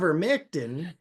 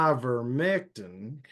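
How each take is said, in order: First: Ivermectin with a light Southern twang; a twangy Southern ivermectin; hint of Southern twang. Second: Slow drawled Southern ivermectin. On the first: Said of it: "is more of a twang". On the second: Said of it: "is more of a drawl". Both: Shown as a demonstration.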